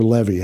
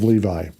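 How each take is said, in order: First: Levi said the other way, as LEV-ee; Levi with a short first vowel and an ee ending; alternative pronunciation. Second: Said in the usual way. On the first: Shown as a demonstration. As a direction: offer LEV-ee as another way to say Levi. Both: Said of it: "however you want to pronounce it".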